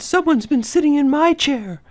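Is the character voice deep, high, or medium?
medium. A medium-pitched voice says it. The middle-sized bear is speaking. "Mama Bear said in her medium-sized voice"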